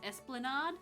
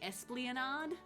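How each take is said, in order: First: The word is said without an added syllable. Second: The word is said with an added syllable. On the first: The speaker calls it right. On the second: The speaker calls it wrong.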